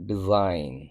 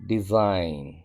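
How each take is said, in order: Both takes have the same delivery.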